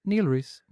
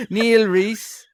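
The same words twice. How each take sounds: First: Said in the usual way. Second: Higher, louder put-on Dublin accent. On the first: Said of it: "supposed to get the normal one". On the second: Host reading supporters' names on request, put-on Dublin accent. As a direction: announce the name in exaggerated Dublin accent. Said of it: "You were supposed to get the normal one".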